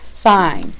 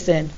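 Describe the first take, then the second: First: The vowel is long, like in 'fine'. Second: The vowel is short, like in 'fin'. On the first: The speaker calls it right. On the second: The speaker calls it wrong.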